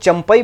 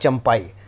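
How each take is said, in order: First: The middle vowel is short and clipped. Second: The middle vowel is long and drawn out. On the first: This is how people commonly say it. The speaker calls it wrong. "हम लोग चंपई बोल रहे हैं" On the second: This is the name's actual pronunciation. The speaker calls it right. "असल जो है उनका pronunciation होता है चंपाई"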